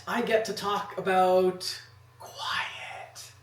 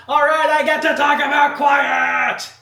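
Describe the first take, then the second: First: Breathy whispered line. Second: High, loud, slow shout. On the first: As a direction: whisper it, slow. Whispered then shouted take of same line. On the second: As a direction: belt the line out, drawn out. Shouted take of same line. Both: Shown as a demonstration.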